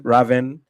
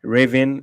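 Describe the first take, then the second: First: Raven said with a short A, "RAV-en", rising; standard Raven. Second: Raven said as "RAY-vin", long A and nasal second vowel; mispronounced Raven. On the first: Shown as a demonstration. Contrasting the usual Raven, "RAV-en". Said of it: "It's completely wrong". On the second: Retold or imitated. Reading a viewer's comment, Raven as "RAY-vin". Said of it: "It's completely wrong, but hilarious".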